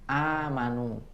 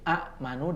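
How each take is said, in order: First: The first vowel is lengthened with no stop. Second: A glottal stop follows the short first vowel. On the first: This is how it is actually read. "dibaca amanu" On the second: This is the original underlying form. "asalnya adalah amanu"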